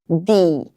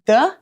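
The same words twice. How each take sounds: First: The vowel is a clear ee sound. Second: The vowel is a short, weak uh sound. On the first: It comes before a vowel. "ou ele vai ter som de i" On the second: It comes before a consonant. "ele vai ter um som de a"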